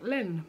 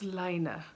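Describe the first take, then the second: First: The name sounds like the French word for wool. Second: The name is said with its Finnish pronunciation. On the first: The name was taken to be French. The speaker calls it wrong. "I was calling it Len magazine because I thought it was wool, French for wool" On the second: The name is taken to be Finnish. The speaker calls it right. "so it's Lina because I think they're Finnish"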